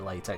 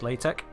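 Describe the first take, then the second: First: The word ends with a ks sound. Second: The word ends with a plain k sound. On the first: "I'm calling it LaTeX still" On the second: "actually pronounced LaTeX"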